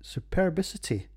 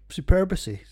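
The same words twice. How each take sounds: First: "Superbicity" said higher, settling on it as good enough; second attempt. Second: "superbity" blurted higher and louder as a botched word; tongue-tied stumble. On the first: Reading the beer name again, higher, accepting the attempt. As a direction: land on "Superbicity" as the passable version. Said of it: "There we, that'll do". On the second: Reading a tricky beer name off his notes, loud botched try. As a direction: trip over "superbity" with a loud, high stab at it. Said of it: "I can't even say it". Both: Real, not acted.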